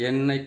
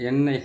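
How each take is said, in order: Both takes have the same delivery.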